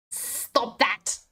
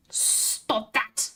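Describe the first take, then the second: First: Said in the usual way. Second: Breathy whispered repeat of "Stop that.". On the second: Acted. Telling the laughing chat to stop, whispered.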